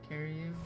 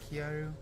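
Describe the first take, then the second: First: It sounds like the English words carry you. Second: It is said as Japanese kya-ru, two syllables. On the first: "they're just saying A K A carry, carry you" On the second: "I expect it to be like a Japanese pronunciation"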